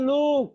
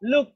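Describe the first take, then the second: First: The vowel is drawn out long. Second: The vowel is clipped short. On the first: The speaker calls it wrong. "বলবো না যে লুক" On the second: The speaker calls it right. "হ্যাঁ, লুক"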